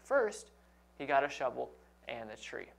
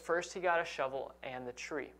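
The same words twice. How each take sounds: First: It is read with a pause after first. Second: It is read without a pause after first.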